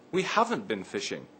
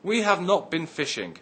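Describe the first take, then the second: First: Have not is contracted into one word. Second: Have not is said as two full words. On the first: "So the sentence becomes" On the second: "Have not can be contracted to haven't"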